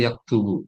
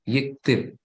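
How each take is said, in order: First: "yaktubu" with a first, then u endings; formal fusha form. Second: "yiktib" with i in both syllables; colloquial kasrah prefix. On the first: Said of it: "yiktib itu artinya yaktubu". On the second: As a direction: say "yiktib" starting "yik", not "yak". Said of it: "selalu diharokati kasrah depannya". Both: Shown as a demonstration.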